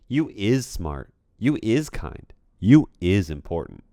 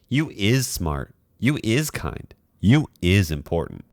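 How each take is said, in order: First: The voice sounds raw, without compression or processing. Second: The voice sounds compressed through a processing chain.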